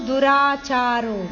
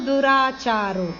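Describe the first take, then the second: No difference in how they are said.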